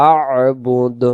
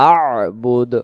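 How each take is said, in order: The two takes are said the same way.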